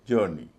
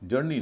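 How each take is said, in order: First: The first vowel is drawn out long. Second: The first vowel is short and clipped. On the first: The speaker calls it right. "क्योंकि ओ यू के बाद आर है" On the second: The speaker calls it wrong. "जर्नी नहीं"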